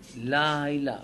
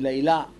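First: The stress is on the first syllable. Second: The stress is on the last syllable. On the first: The speaker calls it right. "המילה לילה היא מלעיל" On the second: The speaker calls it wrong. "לא אומרים לילה"

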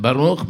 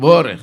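First: The stress is on the last syllable. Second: The stress is on the first syllable. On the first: This is how one community says it. "אנחנו אומרים ברוך מלרע" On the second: This is how another community says it. "אומרים בורך מלעיל"

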